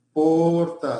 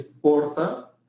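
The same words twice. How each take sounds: First: "porta" with a long, held stressed O; stressed first syllable. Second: Said in the usual way. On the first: Shown as a demonstration. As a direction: stretch the O in "porta" to show the stress. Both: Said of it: "sílaba tónica pasó a".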